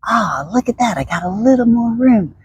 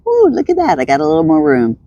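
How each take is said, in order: First: Higher, bright with delight; showing how enthusiasm sounds; enthusiastic. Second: Delighted discovery. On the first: Shown as a demonstration. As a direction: sound thrilled to find more room. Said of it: "if you're enthusiastic in your body and you're like". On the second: Pretend. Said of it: "all of a sudden I'm like".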